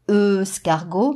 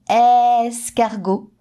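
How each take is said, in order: First: The first vowel is a neutral 'uh' sound. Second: The first vowel is an open 'eh' sound. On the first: The speaker calls it wrong. "je ne dois pas dire escargot" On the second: The speaker calls it right. "mais escargot. J'entends le son est"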